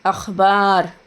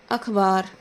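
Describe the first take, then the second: First: अखबार with a throaty kh, like अख़बार; अखबार को ख़ से बोलें; with nukta. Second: Said in the usual way. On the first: Shown as a demonstration. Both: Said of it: "बोलने का अंदाज़ समझ रहे होंगे".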